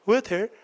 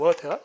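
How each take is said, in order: First: Both the t and the r are sounded. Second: The t is crisp and the r is dropped. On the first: "호주 사람들은 T도 하고 R도 해" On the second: "영국 사람들은 T 발음 되게 좋아요. 근데 오히려 R 발음 안 해요"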